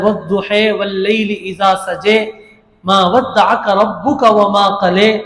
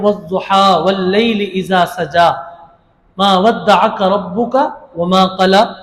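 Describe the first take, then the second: First: The verse-final vowels are pronounced as fronted 'eh'. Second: The verse-final vowels are pronounced as open 'ah'. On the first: "ये क़िरात में पढ़ा जाता है" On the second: "हम कहते हैं"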